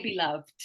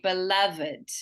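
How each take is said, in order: First: "beloved" as two syllables, be-LOVD. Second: "beloved" as three syllables, be-LUV-id. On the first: Teacher echoing the student's mistake, two-syllable "beloved". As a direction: say "beloved" with a silent E, ending in -vd. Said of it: "it's not actually like that". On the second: Teacher modelling for a student, "beloved" with pronounced -ed. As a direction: sound out the final -ed in "beloved". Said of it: "where we actually pronounce that ed". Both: Shown as a demonstration.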